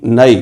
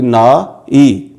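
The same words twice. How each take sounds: First: Said in the usual way. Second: "ना ई" drawn out very slowly as two separate syllables, na then i; split into syllables. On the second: Shown as a demonstration. Teacher spelling out the word for students, very slow syllables. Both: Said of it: "ज़बर की अलामत पड़ी जाएगी".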